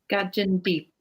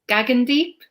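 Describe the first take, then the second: First: The second G is soft, like a J. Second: The second G is hard, like in go. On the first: The speaker calls it wrong. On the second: The speaker calls it right.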